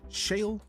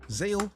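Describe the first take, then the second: First: The name begins with a sh sound. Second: The name begins with a z sound. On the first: "like shh, like a shush sound" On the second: "or a z sound"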